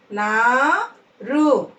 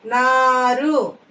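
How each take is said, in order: First: "నారు" split, long rising నా, then రు; "నారు" in two separate syllables. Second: Said in the usual way. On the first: Shown as a demonstration. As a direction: slowly sound out "నారు" with a gap. Teacher sounds out syllables.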